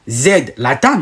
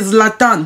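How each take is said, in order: First: The first consonant is split off with a break. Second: The first consonant runs straight into the word. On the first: "vous ne dites pas Z, Latan" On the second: "vous prononcez Zlatan. Vous le prononcez normalement"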